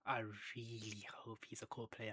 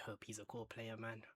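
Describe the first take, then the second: First: Said in the usual way. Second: Breathy whisper of a wish; whispered hope. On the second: Real, not acted. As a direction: whisper it like a private prayer. Hoping a prospect becomes core.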